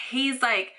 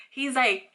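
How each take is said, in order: Both takes have the same delivery.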